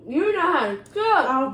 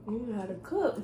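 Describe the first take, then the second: First: It is said loudly, projected outward. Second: It is said at normal, softer volume.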